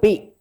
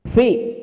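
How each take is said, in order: First: The word begins with a p sound. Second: The word begins with an f sound. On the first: The speaker calls it wrong. "Jangan pi" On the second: The speaker calls it right. "Fi, bukan pi"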